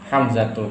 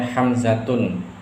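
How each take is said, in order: First: The name ends with an -u sound. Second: The name ends with an -un sound. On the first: The speaker calls it right. "yang benar adalah" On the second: The speaker calls it wrong. "ini salah"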